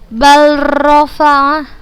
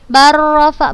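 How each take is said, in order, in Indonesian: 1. L diucapkan terpisah sebelum R. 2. L menyatu sepenuhnya ke R yang ganda. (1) "bukan sudah bacanya balrafa. Salah" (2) "Langsung kita masukkan ke huruf ro-nya"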